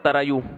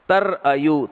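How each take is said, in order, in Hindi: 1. बीच के अक्षर बिना किसी रुकावट के आपस में जुड़कर बोले जाते हैं। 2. बीच के अक्षरों के बीच गले से एक हल्की रुकावट आती है। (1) "इसको पढ़ते हैं तरायू, क्योंकि तर आयु मुश्किल लग रहा है उनको" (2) "असल में था तर अय्यू"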